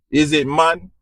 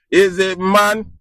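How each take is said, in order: First: Said in the usual way. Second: Repeats the question through a laugh, slower and higher; half laughing as he asks his viewers again. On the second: Real, not acted. Laughing while asking viewers who solves problems.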